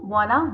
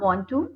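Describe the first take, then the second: First: The two words blend into one reduced word. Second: Both words are said fully and separately.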